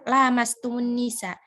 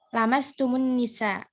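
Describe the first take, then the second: First: The first vowel is long. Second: The first vowel is short. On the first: "lanya itu panjang ya" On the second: "la-nya itu pendek"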